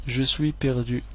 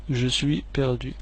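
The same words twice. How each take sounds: The two takes are said the same way.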